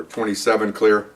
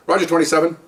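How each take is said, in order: First: Slow, matter-of-fact radio call; officer radioing in. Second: Higher-pitched dispatcher reply; dispatcher's acknowledgement. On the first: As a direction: report in slowly over the radio. Acts car clearing over radio. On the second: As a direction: answer the radio call, pitched up. Acts dispatcher answering the car. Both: Retold or imitated.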